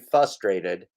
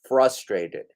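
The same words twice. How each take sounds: First: The R after the F is dropped. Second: The R after the F is pronounced. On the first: The speaker calls it wrong. "Don't say frustrated" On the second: The speaker calls it right. "Say frustrated. It has an R"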